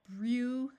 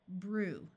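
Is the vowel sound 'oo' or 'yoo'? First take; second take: yoo; oo. First: The vowel is a long 'yoo' sound. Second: The vowel is a plain 'oo' sound. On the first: The speaker calls it wrong. "That's hard to say" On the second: The speaker calls it right. "we will use the oo sound"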